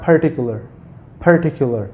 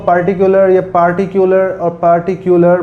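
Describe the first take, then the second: First: "पर्टिकुलर" with aspirated ph and weak first vowel; exact pronunciation. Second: "पार्टिकुलर" with full PAR and unaspirated p; wrong pronunciation. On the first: Teacher giving exact word, "पर्टिकुलर" with aspirated P. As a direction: puff the p of "पर्टिकुलर", phur-TIK-yu-lar. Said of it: "exact pronunciation है वो है". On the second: Teacher listing what some people say, "पार्टिकुलर" as par-ti-kyu-lar. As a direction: open the first vowel of "पार्टिकुलर", no puff on the p. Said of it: "बोलते हैं". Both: Shown as a demonstration.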